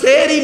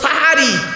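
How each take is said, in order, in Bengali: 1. প্রথম স্বরধ্বনিটি 'e'-এর মতো শোনায়। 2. প্রথম স্বরধ্বনিটি 'a'-এর মতো শোনায়। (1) "শব্দটা সেহরি নয়" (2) "দন্তেশয় একার নয়, দন্তেশয় আকার"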